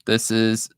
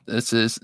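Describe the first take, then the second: No difference in how they are said.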